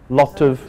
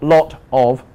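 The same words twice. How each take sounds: First: The word 'of' is weak and reduced. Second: The word 'of' is strong and fully pronounced. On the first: The speaker calls it right. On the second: The speaker calls it wrong.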